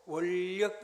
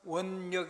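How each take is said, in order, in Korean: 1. 이 연결 자음은 ㄹ로 발음해요. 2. 이 연결 자음은 ㄴ으로 발음해요. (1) "자음접변 ... 이렇게 읽어지죠" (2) "이렇게 안 읽어지고"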